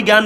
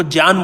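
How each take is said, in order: First: ज्ञान said as "gyaan" with a hard g and y; common gyaan pronunciation. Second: ज्ञान said as "jñaan", starting with j and no hard g; Vedic pronunciation. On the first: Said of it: "वो कभी ज्ञान नहीं बोलेगा". (ज्ञान को "ग्यान" बोलें) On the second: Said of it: "वो ज्ञान बोलेगा". (ज्ञान को वैदिक ढंग से "ज्ञ" बोलें) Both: Shown as a demonstration.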